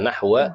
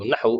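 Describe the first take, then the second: First: The word ends with a vowel after w. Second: The word ends without a final vowel. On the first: "Ini bisa baca nahwa" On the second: "disukunkan juga boleh"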